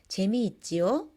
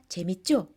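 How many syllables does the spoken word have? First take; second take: five; three. First: It is said in full with five syllables. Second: It is said further shortened with three syllables.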